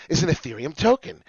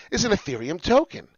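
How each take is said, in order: Both takes have the same delivery.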